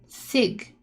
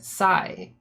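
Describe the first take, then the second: First: The word ends with a hard g sound. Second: The word ends without any g sound. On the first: The speaker calls it wrong. "I thought they were saying with a hard G" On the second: The speaker calls it right. "it's written like a word"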